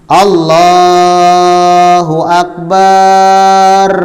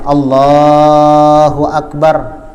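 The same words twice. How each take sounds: First: The last syllable's vowel is drawn out long. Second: The last syllable's vowel is kept short. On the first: The speaker calls it wrong. "Akbarnya ini panjang" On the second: The speaker calls it right.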